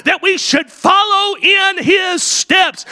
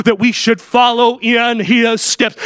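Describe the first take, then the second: First: Preached shout. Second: Said in the usual way. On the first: Acted. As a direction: drive the line home from the pulpit. Preached climax of the point.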